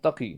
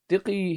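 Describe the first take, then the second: First: The first vowel is an a sound. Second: The first vowel is an i sound. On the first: This is the standard form of the name. "he's kind of pronouncing Taqi" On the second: This is how an Isfahani speaker says it. "he said with a Isfahani accent"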